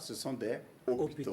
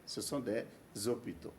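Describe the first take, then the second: First: No z sound links des to the next word. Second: A z sound links des to the next word. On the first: The speaker calls it wrong. "je ne dirais pas" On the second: The speaker calls it right. "la liaison peut se faire"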